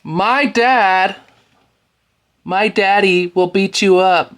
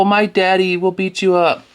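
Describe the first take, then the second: First: High, whiny mock child voice; whiny little boy taunt; mocking whiny kid. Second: High whiny mock repeat of the taunt; childish taunt echoed back; mocking whiny kid. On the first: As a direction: mimic a kid crying for his daddy. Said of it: "now your daddy's coming in to fight your battles". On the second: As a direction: sneer it like a crybaby. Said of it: "Look at, oh".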